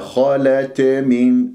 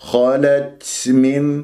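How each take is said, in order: First: The t is released with a bouncing echo. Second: The t carries an exaggerated burst of breath. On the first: "ولا تقلقلها خالت من، هذا خطأ" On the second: "أو تبالغ في الهمس"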